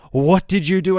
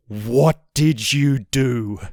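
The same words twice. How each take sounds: First: Higher-pitched mock accusation; accusing repeat. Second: Slow, drawn-out accusation; accusing. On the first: Girlfriend demanding an answer, imitated in raised pitch. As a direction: press the question in a raised voice. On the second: Retold or imitated. Girlfriend confronting him after the dog walk, slow accusation. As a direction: spell out the question slowly, word by word.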